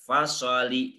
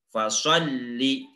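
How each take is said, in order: First: "fasoli" with one light lam, the wrong way; wrong single lam. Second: "Fasholli" with the lam doubled and pressed. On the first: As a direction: say "fasoli" as the mistake. (bacaan salah) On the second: (lam bertasydid ditekan) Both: Shown as a demonstration. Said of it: "tidak fasoli".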